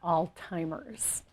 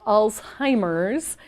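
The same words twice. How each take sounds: First: The word sounds like 'old timers'. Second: The word is said with a 'z' sound. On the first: The speaker calls it wrong. "it is not" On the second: The speaker calls it right. "But it is Alzheimer's"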